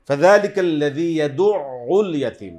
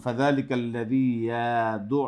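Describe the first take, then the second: First: ইয়াদুউল with pressure on the ain, sound kept going; slow and louder, pressing the ain; stress on the ain. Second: ইয়াদু cut off short, sound closed; slow, with the voice stopped on ইয়াদু; wrong clipped ending. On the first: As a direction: correct held-through ইয়াদুউল. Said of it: "এই আইনের উপরে চাপ দিয়ে". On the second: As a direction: mistaken cut-off pronunciation. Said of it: "অনেকে বন্ধ করে ফেলে". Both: Shown as a demonstration.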